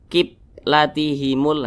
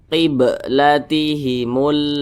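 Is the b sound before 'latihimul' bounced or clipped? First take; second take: clipped; bounced. First: The b is clipped short with no bounce. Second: The b is released with a bouncing echo. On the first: The speaker calls it wrong. "nah itu enggak enggak ada pantulannya, itu salah" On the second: The speaker calls it right. "Tapi harus ada pantulannya"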